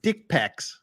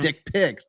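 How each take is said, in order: First: The second word has an 'e' vowel, like 'pecs'. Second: The second word has an 'i' vowel, like 'pics'. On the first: "the giveaway he was Australian there is when he said dick pecs" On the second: "instead of dick pics"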